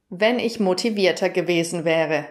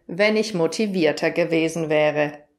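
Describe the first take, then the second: No difference in how they are said.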